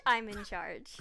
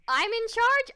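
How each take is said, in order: First: Said in the usual way. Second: Rising in disbelief; loud, high shocked question; surprised question. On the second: Real, not acted. Told she is in charge.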